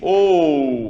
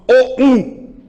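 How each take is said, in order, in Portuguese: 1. O o é forte e o u é fraco. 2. O o e o u são igualmente fortes. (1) "o O tá predominante, o U tá um pouquinho mais fraco" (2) "Se eu colocasse as duas no mesmo timbre, aliás, perdão, na mesma pronúncia"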